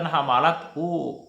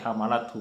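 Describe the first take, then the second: First: The final vowel of hu is lengthened. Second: The final vowel of hu is kept short. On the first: The speaker calls it wrong. "bukan hamalat hu" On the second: The speaker calls it right. "tapi hamalat hu karena dia berbaris berharakah sukun"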